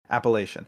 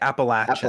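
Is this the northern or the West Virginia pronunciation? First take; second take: northern; West Virginia. First: It is pronounced the northern way. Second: It is pronounced the West Virginia way. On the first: "I'm going to say it the northern Norway" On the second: "they say like Appalachian"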